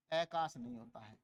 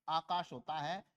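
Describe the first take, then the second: First: आकाश clipped to kas, falling low; wrong short form. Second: आकाश with long open aa; correct vowel length. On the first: Teacher mocks the wrong आकाश, low and clipped. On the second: Teacher shows the correct आकाश to students. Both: Shown as a demonstration.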